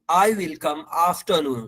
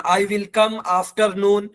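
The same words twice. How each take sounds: First: "afternoon" with no R, "aaf-tuh-noon"; silent R. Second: "afternoon" with a pronounced R; wrong sounded R. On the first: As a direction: leave out the R of "afternoon". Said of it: "आर silent रहेगा". ("afternoon" में आर silent) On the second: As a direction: say "afternoon" as "af-terr-noon". ("afternoon" में आर की आवाज़ के साथ) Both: Shown as a demonstration.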